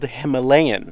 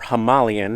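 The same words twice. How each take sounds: First: It is said the American way. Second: It is said the non-American way. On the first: "Americans, we say everything wrong" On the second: "if you're in another part of the world"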